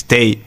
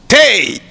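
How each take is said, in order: First: Said in the usual way. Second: High, sharp burst; mimicked high-pitched shout; imitated sudden cry. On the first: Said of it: "Na hora que ele fez". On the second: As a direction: fire it out like a command. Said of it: "apontou e fez assim".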